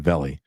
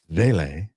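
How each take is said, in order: First: The name is not said like 'valet'. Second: The name is said like 'valet'. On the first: The speaker calls it wrong. "It's not a Vele" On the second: The speaker calls it right. "that sounds like what you do when you bring your car to the casino"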